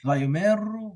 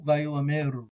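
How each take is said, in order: First: Vayomeru run together, no aleph; silent aleph. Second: Vayoameru with a clear a before meru; aleph pronounced. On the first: Teacher contrasts the silent-aleph reading. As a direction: Vayomeru without the a. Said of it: "treat it as silent". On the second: Teacher contrasts his aleph reading. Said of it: "I like including it". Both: Shown as a demonstration.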